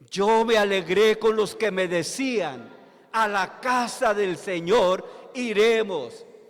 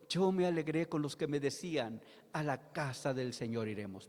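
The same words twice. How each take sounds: First: It is said loudly and with force. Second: It is said calmly, in a poetic way.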